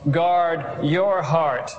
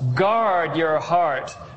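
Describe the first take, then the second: First: The stress is on the word heart. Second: The stress is on the word guard.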